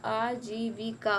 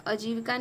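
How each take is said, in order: First: आजीविका slow, with a long "aa" at the start; corrected form. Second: आजीविका quick, with a short "a" at the start; wrong form. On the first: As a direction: spread आजीविका into aa-jee-vi-kaa. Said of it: "आजीविका होता है". (आजीविका को लंबे आ से धीरे बोलें) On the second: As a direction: say आजीविका as "ajeevika". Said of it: "आजीविका नहीं होता है". (आजीविका को छोटे अ से "अजीविका" बोलें) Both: Shown as a demonstration.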